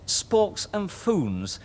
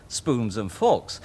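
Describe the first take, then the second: First: "sporks and foons" said slowly and carefully, the first sounds of spoons and forks swapped; slow, deliberate slip of the tongue; muddled spoonerism. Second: Said in the usual way. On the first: Retold or imitated. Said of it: "I said". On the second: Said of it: "instead of".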